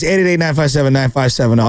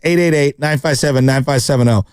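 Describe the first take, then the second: First: The number is read quickly. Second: The number is read slowly. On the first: The speaker calls it wrong. "I always say it too fast" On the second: The speaker calls it right. "I'll say it one more time slowly"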